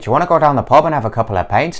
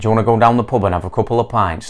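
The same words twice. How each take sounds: First: It is spoken in an Irish accent. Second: It is spoken in a Yorkshire accent. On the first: "O último sotaque é de Ireland" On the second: "sétimo sotaque é de Yorkshire"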